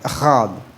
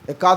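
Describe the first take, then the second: First: The middle consonant is a breathy h sound. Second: The middle consonant is a hard k sound. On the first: The speaker calls it right. "ఎహాద్ ఇది ఇట్లా పలకాలి" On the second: The speaker calls it wrong. "ఎకాద్ అంటాం కదా"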